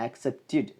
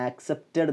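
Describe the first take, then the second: First: "ആക്സെപ്റ്റഡ്" as aksep-tid; correct id ending. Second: "ആക്സെപ്റ്റഡ്" with an open -ted vowel; wrong ed ending. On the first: Teacher corrects learners, "ആക്സെപ്റ്റഡ്" ending -tid. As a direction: end "ആക്സെപ്റ്റഡ്" on a short i, -tid. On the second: Teacher shows what not to say, "ആക്സെപ്റ്റഡ്" ending -ted. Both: Shown as a demonstration. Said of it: "ആക്സെപ്റ്റഡ് എന്നല്ല".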